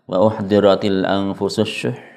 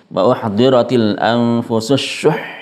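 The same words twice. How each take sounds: First: The final word is said flat and unstressed. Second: The final word is stressed with raised pitch. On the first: The speaker calls it wrong. "Kalau dibaca datar biasa" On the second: The speaker calls it right. "Jadi harus tekan dari shinnya"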